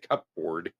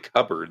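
First: The p is pronounced, sounding like cup board. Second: The p is silent, sounding like cubbard. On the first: The speaker calls it wrong. "They don't say cupboard" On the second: The speaker calls it right. "People say cupboard"

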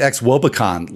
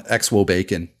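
First: The ending sounds like the word con. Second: The ending sounds like the word bacon. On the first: It evokes a yearly convention. "I've been pronouncing it XWOBACON like it's, you know, an event that you go to once a year" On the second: It evokes the food. "I'm a little hung up on XWO bacon. Like that, you know, I'm a little hungry"

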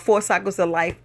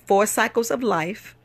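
First: The phrase is said at a normal speed. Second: The phrase is said slowly and deliberately.

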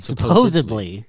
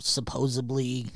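First: It is said with a D sound before -ly. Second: It is said with a B sound before -ly. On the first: The speaker calls it right. "There you go" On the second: The speaker calls it wrong. "Did you just say supposedly with a B?"

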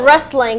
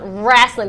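First: The word has the standard 'wrestling' pronunciation. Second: The word is said the old-school way, like 'wrasslin'. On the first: The speaker calls it wrong. "Not wrestling" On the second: The speaker calls it right. "The old school, the original way"

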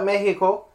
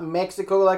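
First: Mexico is said with a Spanish pronunciation. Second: Mexico is said with an English pronunciation. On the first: The speaker calls it right. "because that's how you actually pronounce it" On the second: The speaker calls it wrong. "It's not Mexico"

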